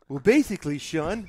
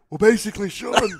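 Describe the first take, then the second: First: The voice sounds normal and undamaged. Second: The voice sounds strained and damaged. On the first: This is the voice before the throat injury. "what's Triple H before the larynx getting crushed?" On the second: This is the voice after the throat injury. "What about after?"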